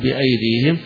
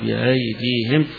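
First: The glottal stop is fully pronounced. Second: The glottal stop is softened toward a long a. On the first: This is the majority reading. "الجمهور يحققون" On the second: This is a particular reciter's pausal reading. "يقف عليها بالتسهيل"

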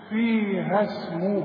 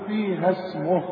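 First: The final vowel is held for two counts. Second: The final vowel is short, not held. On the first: "علشان امد الحرف اللي معايا ده حركتين" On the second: "من غير مد"

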